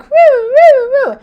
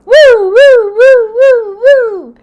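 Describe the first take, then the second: First: High, loud siren whoops; car alarm imitation. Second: High, loud wailing siren whoops; car alarm imitation. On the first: Telling viewers about the alarm, high loud siren imitation. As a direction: mimic the wailing car alarm. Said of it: "It's like". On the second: Telling viewers the alarm returned, loud high siren wail. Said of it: "And what do I hear?".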